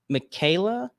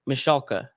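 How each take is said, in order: First: The name is not said as Mish-alka. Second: The name is said as Mish-alka. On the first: The speaker calls it wrong. "so I said that wrong" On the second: The speaker calls it right. "it says it's pronounced Mish Alka"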